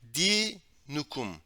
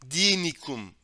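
First: The vowel after the n is u. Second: The vowel after the n is i. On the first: The speaker calls it right. "Bunu düzeltmemiz lazım" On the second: The speaker calls it wrong. "Dinikum deniliyor. Bu yanlış"

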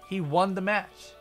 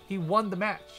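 The two takes are said the same way.

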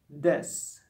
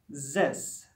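First: The word starts with a hard d sound. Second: The word starts with a buzzing z sound. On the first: It is how a German speaker might say it. "German may pronounce it as this" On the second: It is how a French speaker might say it. "French speakers may pronounce this as this"

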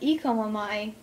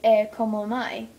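First: The first vowel is not an 'eh' sound. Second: The first vowel is a short 'eh' sound. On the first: The speaker calls it wrong. "Not e como mai" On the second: The speaker calls it right. "E is eh"

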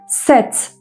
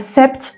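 First: The 'p' sound is left out of the word. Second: The 'p' sound is pronounced in the word. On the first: The speaker calls it right. "Set diyoruz" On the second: The speaker calls it wrong. "p'yi kesinlikle telaffuz etmedik. Yani sept demiyoruz"

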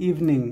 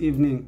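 Both takes have the same delivery.

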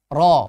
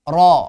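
Both takes have the same delivery.

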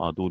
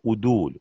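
First: The first vowel is an 'a' sound. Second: The first vowel is a 'u' sound. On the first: The speaker calls it wrong. "Tabii bunu adul okumuştuk" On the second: The speaker calls it right. "Bunu udul diye düzeltelim"

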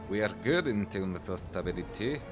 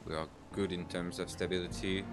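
First: It is said in an imitated Russian accent. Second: It is said in the speaker's plain accent.

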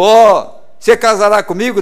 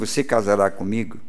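First: It is shouted loudly. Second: It is said softly, close to the ear.

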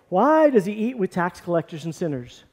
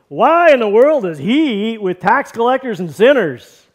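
First: It is asked as a plain, neutral question. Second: It is asked with scorn and indignation.

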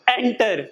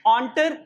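First: The first syllable is said with an 'en' vowel. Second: The first syllable is said with an 'on' vowel. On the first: The speaker calls it wrong. "It's not एंटर" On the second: The speaker calls it right. "इसकी pronunciation ओ से होगी"

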